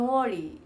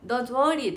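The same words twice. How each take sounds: First: "Don't worry" with no T, flowing into worry; correct pronunciation. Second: "Don't worry" with a clear T sounded in "Don't"; wrong pronunciation. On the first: Shown as a demonstration. The coach's correct version, T dropped. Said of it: "「と」入れちゃダメなんだよって". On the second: Retold or imitated. Her old mistaken reading, hitting the T in "Don't worry". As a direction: stress "Don't worry" with the T audible, falling on worry. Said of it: "って言ってたの".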